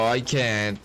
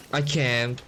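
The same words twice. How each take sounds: The two takes are said the same way.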